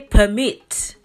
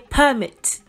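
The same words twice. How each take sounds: First: The stress is on the second syllable. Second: The stress is on the first syllable. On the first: It means to give permission. "to give someone permission" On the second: It names an official document. "the official document"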